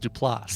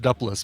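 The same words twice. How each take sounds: First: The stress is on the last syllable. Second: The stress is on the first syllable. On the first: The speaker calls it right. "With the emphasis on the last syllable" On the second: The speaker calls it wrong. "where I'd heard that it was pronounced Duplass"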